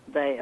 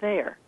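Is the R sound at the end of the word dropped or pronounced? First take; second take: dropped; pronounced. First: The final R sound is dropped. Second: The final R sound is pronounced. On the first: "they drop their R's. They say here, there" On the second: "instead of here and there"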